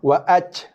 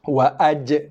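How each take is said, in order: First: The final j is released without that bounce. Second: The final j is released with a bounce. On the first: The speaker calls it wrong. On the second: The speaker calls it right. "Itu bunyi qalqalah jim"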